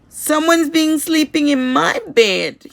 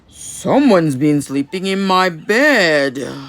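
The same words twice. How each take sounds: First: It is said as Baby Bear, crying. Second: It is said in Papa Bear's deep, gruff voice.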